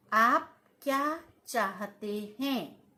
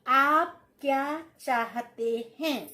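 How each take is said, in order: First: Said in the usual way. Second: आप hit loud, slow careful delivery; slow dictation, extra weight on आप; slow emphatic dictation. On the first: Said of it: "teacher repeats the sentence". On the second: Shown as a demonstration. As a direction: lean on आप as you dictate. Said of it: "teacher dictates, repeats sentence".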